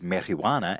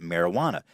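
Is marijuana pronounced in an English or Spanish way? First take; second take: Spanish; English. First: The word is pronounced with Spanish-style sounds. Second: The word is pronounced with ordinary English sounds. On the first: This is the Spanish word nobody uses. "nobody refers to it as marijuana" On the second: This is the everyday English word. "Everybody calls it marijuana. That's the English word"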